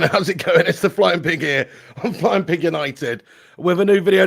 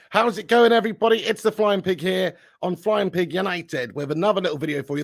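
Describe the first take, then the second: First: Loud, punchy channel intro; energetic loud intro. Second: Said in the usual way. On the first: Real, not acted. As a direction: hit the opening hard and loud. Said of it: "No, not new graphics". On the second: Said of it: "I didn't mean to press that".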